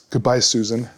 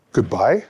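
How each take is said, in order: First: Said in the usual way. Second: "Goodbye?" with a rising question tune, gently asked. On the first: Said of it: "and, and says". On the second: Retold or imitated. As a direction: let "Goodbye?" lift at the end as a question. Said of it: "says it with a question mark".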